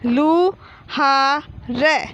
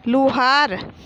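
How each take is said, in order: First: Very slow, drawn-out लू, हा, र; teacher stretching each piece of Luhar; syllable by syllable. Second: Said in the usual way. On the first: Shown as a demonstration. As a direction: sound out लू हा र with gaps between. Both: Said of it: "तो ये क्या हो गया?".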